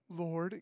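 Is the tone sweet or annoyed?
sweet. It is said in a sweet, pious tone.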